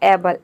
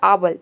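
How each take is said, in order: First: The first vowel sounds like 'ay'. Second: The first vowel sounds like 'ah'. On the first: The speaker calls it right. "ए का ए हो जाएगा" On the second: The speaker calls it wrong. "ए को आ pronounce कर दिया"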